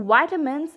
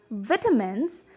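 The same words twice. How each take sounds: First: "vitamins" with a long I; American "vitamins", first vowel as in "eye"; American pronunciation. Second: "vitamins" with a short I; British "vitamins", first vowel as in "bit"; British pronunciation. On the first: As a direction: say "vitamins" the American way, as VY-tuh-mins. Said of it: "in American accent". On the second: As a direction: say "vitamins" the British way, as VIT-uh-mins. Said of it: "pronounce the word in British accent". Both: Shown as a demonstration.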